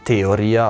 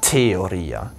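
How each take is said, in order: First: The first t has no strong breath after it. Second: The first t has a strong breath after it. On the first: The speaker calls it wrong. "wird nicht Theoria ausgesprochen" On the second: The speaker calls it right. "man muss dann das H stark hören"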